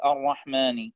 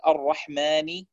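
First: الرحمن said entirely through the nose; nasal whole word. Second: Said in the usual way. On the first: Shown as a demonstration. Teacher demonstrating nasalizing the whole word الرحمن. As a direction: push all of الرحمن into the nose. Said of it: "يصبح النطق الكلمة كله من الأنف". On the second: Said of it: "بدل أن يقول".

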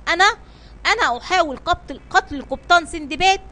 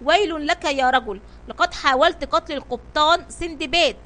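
First: Disbelieving question, rising at the end; stunned, halting question; astonished. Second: Mildly angry accusation; narrated outburst, only lightly raised; angry shout. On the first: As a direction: echo the accusation in mild amazement. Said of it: "هتف البحار في دهشة". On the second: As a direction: accuse with understated anger. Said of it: "صاح به صفوان في غضب". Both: A narrator's reading.

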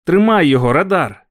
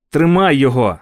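First: Loud higher shout to the dog; shouting again at the dog. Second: Loud shout, higher pitch; shouted command to the dog. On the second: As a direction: yell after the dog. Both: A narrator's reading. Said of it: "кричав я".

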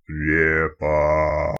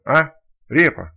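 First: Репа drawn out low and booming like a spirit; thunderous otherworldly voice. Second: Loud, slow baffled question ending on Репа; puzzled question. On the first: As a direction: call Репа slowly in a low ghostly boom. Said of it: "громовым потусторонним голосом". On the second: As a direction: ask Репа in a puzzled, rising-then-falling tone. Second stalker asks Repa. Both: Acted.

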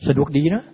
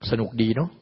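First: สนุกดีนะ louder, ending นะ on a sharp rise; teasing the listeners with a louder, rising สนุกดีนะ; louder rising tease. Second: Said in the usual way. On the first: Shown as a demonstration. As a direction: toss สนุกดีนะ out louder with a lifted นะ.

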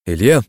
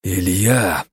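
First: «Илья!» громко позвать с подъёмом в конце; «Илья!» как оклик через цех; окликнуть. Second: «Илья!» процедить сквозь сжатые зубы; «Илья!» сдержанно, зубы стиснуты. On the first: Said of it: "позвал Синицына я". («Илья!» позвать, чуть громче) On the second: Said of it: "процедил сквозь зубы я". («Илья!» цедить сквозь зубы) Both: A narrator's reading.

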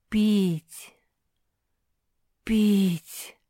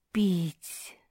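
First: Louder, otherworldly moan of thirst; a ghostly voice calling over the desert; eerie distant call. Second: Said in the usual way. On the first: A narrator's reading. A voice over the pugs' heads calls out, eerie. Пронеслось над головами мопсих.

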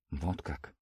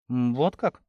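First: Very soft, low, pensive; drawn out. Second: Understated surprised question, rising at the end; mild surprise. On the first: Father taking in the news, softly drawn out. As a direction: let it trail out slowly and softly. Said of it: "протянул мужчина и со вздохом". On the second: Young lady hearing the servant's news, mildly surprised. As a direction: wonder aloud with a touch of surprise. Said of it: "удивилась она". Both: A narrator's reading.

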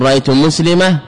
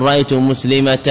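First: مسلمة with no final t; pausal ha ending. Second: مسلمة ending in a t, muslimat; مسلمة ends in t; pausal ta ending. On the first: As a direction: say مسلمة as muslima. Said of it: "لا يبدل التنوين". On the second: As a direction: say مسلمة with a final t. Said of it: "أن يقف على التنوين بالألف". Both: Shown as a demonstration.

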